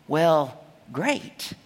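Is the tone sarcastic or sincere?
sincere. It sounds sincere and glad.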